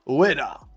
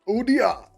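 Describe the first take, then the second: First: The name is said oo-eh-dah. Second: The name is said oo-dee-ah. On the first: The speaker calls it right. "Pronounced as oo as in book, e as in yen, and da as in dad" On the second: The speaker calls it wrong. "Opposite way around, dyslexic way"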